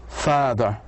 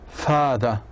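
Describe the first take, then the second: The two takes are said the same way.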